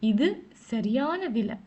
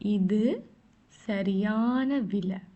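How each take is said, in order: First: It is said at normal speed. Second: It is said slowly.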